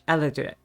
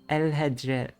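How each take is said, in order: First: The name is said without an h sound. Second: The name is said with an h sound.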